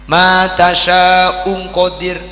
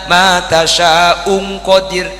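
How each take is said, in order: The two takes are said the same way.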